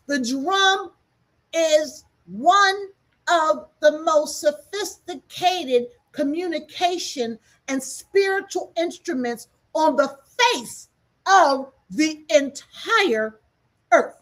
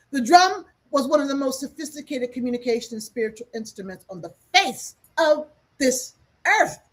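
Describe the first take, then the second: First: Every word slowed and weighted, drum pushed high; slow and emphatic. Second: Said in the usual way. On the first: Shown as a demonstration. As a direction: spell it out slowly so nobody misses it. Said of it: "Let's say it again. Maybe you didn't hear me clearly". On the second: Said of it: "Let's say it again".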